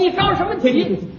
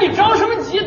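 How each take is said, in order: First: It is said muffled, as if eating. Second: It is said clearly with some emotion.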